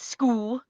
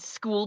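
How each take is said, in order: First: The final L sounds soft, like a W. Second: The final L is a clear L sound.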